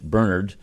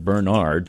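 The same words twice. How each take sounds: First: It is pronounced the Irish way. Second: It is pronounced the American way. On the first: "The Irish may pronounce it" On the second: "across the pond may pronounce it"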